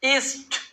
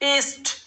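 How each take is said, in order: Both takes have the same delivery.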